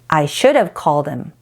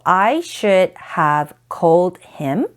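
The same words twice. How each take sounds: First: The words are reduced and run together. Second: Every word is said fully and separately.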